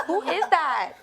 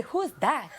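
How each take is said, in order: First: Higher, louder startled cry, laughing; startled shout. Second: Laughing startled cry, higher and louder. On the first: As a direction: replay the scare, louder and laughing. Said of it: "and I was like". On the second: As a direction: replay the fright with a laugh. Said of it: "'Cause I was about to say". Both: Retold or imitated.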